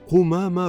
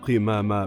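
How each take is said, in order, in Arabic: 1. المقطع الأول فيه الحركة 'u'. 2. المقطع الأول فيه الحركة 'i'. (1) "قل قمامة بضم القاف" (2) "ولا تقل قمامة بكسرها"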